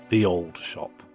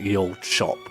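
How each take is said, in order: First: The first word starts with a 'th' sound. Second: The first word starts with a 'y' sound. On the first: The speaker calls it right. "So the word ye is pronounced the" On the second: The speaker calls it wrong. "I knew that was an incorrect pronunciation"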